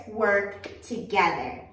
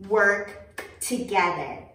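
No difference in how they are said.

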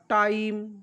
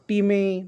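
First: It is read as one syllable, 'tyme'. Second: It is read as two syllables, 'tee-meh'. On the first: The speaker calls it right. "IME येतो तर त्याचा उच्चार आईम" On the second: The speaker calls it wrong. "ते विद्यार्थी असे वाचू शकतात"

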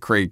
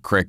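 First: The word is said with a long standard vowel. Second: The word is said with a short rural vowel. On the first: This is how people in the new town said it. "instead of creek" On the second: This is how the speaker said it growing up in the country. "I said crick"

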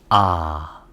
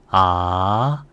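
First: The pitch starts low and dips lower. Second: The pitch rises from mid to high. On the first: "낮은 음에서 낮은 음으로 내려갑니다" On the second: "이성은 올려주세요"

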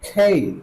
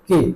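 First: The k is aspirated with a gliding vowel. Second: The k is unaspirated with a pure vowel. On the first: The speaker calls it right. "কে না বলে কি বলবো খেই" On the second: The speaker calls it wrong. "এটাকে বলতাম কি কে"

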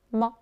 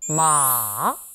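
First: It is light and brief, barely stressed. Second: It goes down slowly in a long sound. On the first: "살짝 잡아주는 경성" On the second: "삼성은 쭉 길게 내려옵니다"

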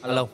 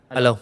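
First: The voice sounds quiet. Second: The voice sounds moderately loud. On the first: "gain 40 nè, mình nói chuyện nhỏ xíu à" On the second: "tăng lên 50 nè"

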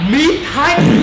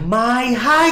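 First: The first word sounds like 'meet'. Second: The first word sounds like 'my'. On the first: The speaker calls it wrong. "Tên đấy không phải là Mít Hách" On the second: The speaker calls it right. "mà nó là Mai Hách. Nó là chữ Mai"

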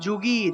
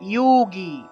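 First: The word begins with a j sound. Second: The word begins with a y sound.

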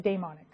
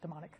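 First: The first syllable sounds like 'day'. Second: The first syllable sounds like 'dee'. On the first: This is how some superstitious people say it. "the people who are a little superstitious that say daemonic" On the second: This is the speaker's own usual way of saying it. "I just call it demonic"

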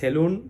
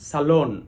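First: The second syllable sounds like 'loon'. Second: The second syllable sounds like 'lon'. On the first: The speaker calls it wrong. "কেউ কেউ বলে সেলুন" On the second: The speaker calls it right. "ঠিক স্যালনটাও এরকম"

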